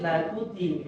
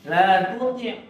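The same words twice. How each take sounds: First: The t is light and plain. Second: The t is heavy and emphatic. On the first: The speaker calls it wrong. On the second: The speaker calls it right.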